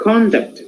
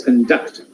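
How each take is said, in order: First: "conduct" as CON-duct, first syllable high; stress on first syllable. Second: "conduct" as con-DUCT, first vowel reduced; stress on second syllable. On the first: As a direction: noun "conduct", punch the CON. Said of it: "here it is noun". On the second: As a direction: verb "conduct", lean on DUCT. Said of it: "stressing part". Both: Shown as a demonstration.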